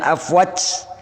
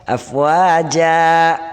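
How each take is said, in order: First: The word ends on a consonant sound. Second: The word ends on a vowel sound. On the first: The speaker calls it wrong. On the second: The speaker calls it right.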